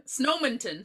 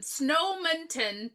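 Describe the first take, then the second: First: Said in the usual way. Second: "Snowminton town" stretched out slowly; slow, deliberate "Snowminton town"; drawn-out name. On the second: Shown as a demonstration. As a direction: draw out each part of "Snowminton town". Repeats the town's name drawn out.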